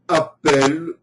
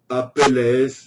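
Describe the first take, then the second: First: The name ends without an s sound. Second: The name ends with an audible s sound. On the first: "il est parfois écrit avec E deux L comme hirondelle sans S" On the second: "Apelles sonne plus grec un peu comme Périclès"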